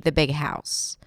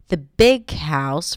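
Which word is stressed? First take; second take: house; big. First: The stress is on house. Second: The stress is on big. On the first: It simply names the house, with no contrast. "in a more neutral way of saying it, or, you know, the most common way to say this phrase" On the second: It is the big house, not the small one. "Then I would stress the adjective"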